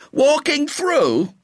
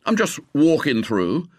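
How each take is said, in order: First: Loud, very high, drawn-out outrage; exploding. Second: Said in the usual way. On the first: A narrator's reading. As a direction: echo it back in indignant disbelief. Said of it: "exploded the young man". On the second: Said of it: "Walking through?" exploded the young man".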